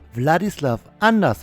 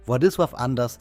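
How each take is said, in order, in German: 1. Der Name wird mit deutschen Lauten ausgesprochen. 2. Der Name wird mit polnischen Lauten ausgesprochen. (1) "als deutsche Kartoffel, als Allmann, würde ich nun den Namen als Wladislaw anders aussprechen" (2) "spricht man dann doch auf Polnisch ganz anders aus"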